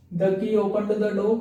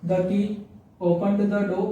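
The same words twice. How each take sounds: First: Very slow, word by word; slow dictation. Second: Said in the usual way. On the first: Shown as a demonstration. Teacher repeating the example for students, slow dictation. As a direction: repeat it slowly so they can write it. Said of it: "repeated slowly for dictation". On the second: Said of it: "first reading of example".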